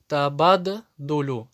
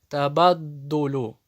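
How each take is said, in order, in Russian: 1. Удвоенный согласный произносится как два отдельных звука. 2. Удвоенный согласный произносится как один долгий звук. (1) "Это ошибка" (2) "Задерживаешь звук и потом произносишь"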